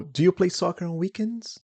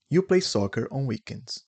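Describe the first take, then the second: First: Pitched up as a question, "weekends" rising; rising intonation. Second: Statement tune, dropping on "weekends"; falling intonation. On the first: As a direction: question tune, higher and climbing on "weekends". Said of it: "it's rising intonation". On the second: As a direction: let the pitch go down to the end of "weekends". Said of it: "the intonation goes down". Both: Shown as a demonstration.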